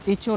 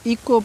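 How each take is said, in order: First: The middle consonant is a ch sound. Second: The middle consonant is a k sound. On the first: The speaker calls it wrong. "इचो नहीं पढ़ना है" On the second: The speaker calls it right. "इसको इको पढ़ना है"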